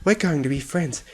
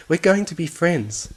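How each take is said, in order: First: Higher sing-song coo, We're leaned on; cooing promise. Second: Higher coo, going stressed with a falling end; insistent coo. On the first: Fluttershy coos to the captured bunny, higher and sing-song. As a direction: croon it to the bunny in your hooves. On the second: Fluttershy insists to the bunny, higher, going stressed. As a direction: press the promise on the bunny. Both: Acted.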